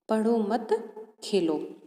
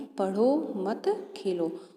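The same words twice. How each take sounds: First: There is a pause after 'मत'. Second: It is said without a pause after 'मत'.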